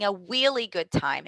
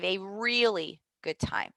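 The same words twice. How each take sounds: First: Really begins with a W sound. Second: Really begins with a clear R sound. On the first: The speaker calls it wrong. "Or same with the R sound. Um, they might say" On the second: The speaker calls it right. "instead of a really good time"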